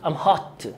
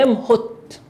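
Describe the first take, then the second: First: The vowel in the last word sounds like 'ah'. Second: The vowel in the last word sounds like 'oh'. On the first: The speaker calls it right. "تقول ام هات" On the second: The speaker calls it wrong. "يعني مش اي ام هوت"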